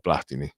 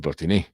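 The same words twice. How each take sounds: First: The name is pronounced the Italian way. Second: The name is pronounced the French way. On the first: Nobody said the name this way. The speaker calls it wrong. "nessuno diceva Platini" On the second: This is how everyone said the name. The speaker calls it right. "Si diceva Platini, alla francese"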